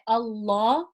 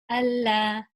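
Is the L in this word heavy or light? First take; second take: heavy; light. First: The L sound is heavy and deep. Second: The L sound is light and thin.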